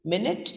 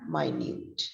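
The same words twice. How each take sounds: First: "Minute" as MIN-it, stress first; time-unit pronunciation. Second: "minute" as my-NYOOT; adjective pronunciation. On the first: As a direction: say "Minute" short, like "minnit". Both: Shown as a demonstration. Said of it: "that is where the entire pronunciation changes".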